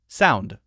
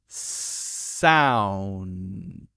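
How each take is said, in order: First: The word is said at a faster pace. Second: The word is said at a slower pace.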